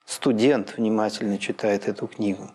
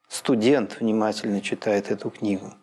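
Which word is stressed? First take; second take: Студент; Студент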